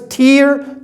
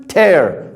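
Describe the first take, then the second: First: High-pitched "Tear" rhyming with ear; contrasted noun pronunciation. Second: Falling "tear" rhyming with air; contrasted verb pronunciation. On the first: Teacher showing the difference to students, "Tear" as high teer. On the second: Teacher showing the difference to students, "tear" as falling tair. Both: Shown as a demonstration. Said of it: "You see the difference?".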